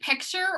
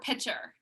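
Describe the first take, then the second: First: A k sound is heard before the t. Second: The k sound before the t is dropped. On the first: The speaker calls it right. "That's how it's spelled" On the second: The speaker calls it wrong. "It's not pitcher. A pitcher is a different word"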